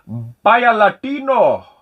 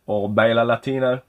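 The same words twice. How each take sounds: First: Slow, high, loud hammed-up Spanish accent. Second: Said in the usual way. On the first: Naming a game for viewers in a hammed-up Spanish accent. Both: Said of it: "I'm gonna do my best Spanish accent for you".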